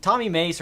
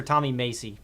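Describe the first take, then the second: First: "Mace" said as one syllable, rhyming with face; Mace pronunciation. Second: "Macy" said in two syllables, MAY-see; Macy pronunciation. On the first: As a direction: say "Mace" like the word mace, no final ee. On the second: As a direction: add a final ee sound: "Macy". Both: Shown as a demonstration. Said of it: "Is it Tommy Mace or Tommy Macy?".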